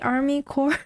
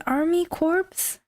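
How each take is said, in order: First: The second word sounds like core, with silent p and s. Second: The second word sounds like corpse, with p and s. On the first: The speaker calls it right. "Are you sure it should be Army Corps?" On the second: The speaker calls it wrong. "it's not pronounced as Army Corpse?"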